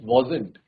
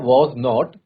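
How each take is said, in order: First: It is said as one short contracted word. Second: It is said as two full separate words. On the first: "इसको pronounce भी करते हैं वॉजेंट" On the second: "ये पूरा होता है वॉज नॉट"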